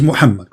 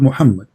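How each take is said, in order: First: Muhammad with the Arabic throaty h; Arabic pronunciation. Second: Muhammad with an everyday English h; Latinised pronunciation. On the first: Correcting a caller on the name, Arabic-sounding "Muhammad". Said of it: "there's nothing is called Muhammad". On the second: Correcting a caller on missing letters, Latinised "Muhammad". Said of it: "It is Muhammad, correct?". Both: Shown as a demonstration.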